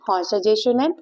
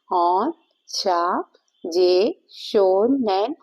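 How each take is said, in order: First: Said in the usual way. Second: Very slow, syllable by syllable; drawn-out symbol name. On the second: Shown as a demonstration. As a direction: stretch each syllable while tracing the symbol. Spells out symbol name while drawing.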